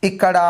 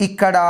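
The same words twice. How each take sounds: The two takes are said the same way.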